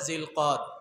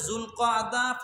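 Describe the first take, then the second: First: It is said as a short, clipped Bengali form. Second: It is said as a long, multi-syllable Arabic form. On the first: This is the Bengali name. "বাংলায় বলে জিলকদ" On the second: This is the Arabic name. "আরবিতে যুলকআদা"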